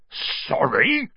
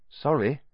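First: Gruff, incredulous bark rising at the end; indignant rising bark; barked disbelief. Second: Put-on quick, higher boyish sorry; hurried little "sorry"; quick apology. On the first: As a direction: throw the word back in disbelief. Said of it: "barked Hagrid". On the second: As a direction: blurt a small apology. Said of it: "Harry said quickly". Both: A narrator's reading.

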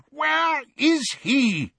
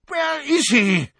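First: Much higher, slow drawn-out cry; frantic repeated shout; yelled again. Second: Much higher, loud slow yell; furious searching cry. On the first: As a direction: call it out long and high. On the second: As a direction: bellow the question in alarm. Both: A narrator's reading. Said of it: "yelled Fudge".

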